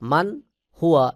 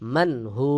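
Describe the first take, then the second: First: The last word ends with a short 'a' vowel. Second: The last word ends with a lengthened 'u' vowel. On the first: "ওয়াও এর উপরে জবর রয়েছে" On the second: "যখন আমি এখানে থেমে যাব তখন কিন্তু এই জবর আর থাকবে না... একালিপ টান দিয়ে পড়তে হবে"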